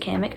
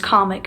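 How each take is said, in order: First: The name does not sound like comic. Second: The name sounds like the word comic. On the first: The speaker calls it wrong. "I've always pronounced it Kamek" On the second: The speaker calls it right. "I know that it's comic and not Kamek"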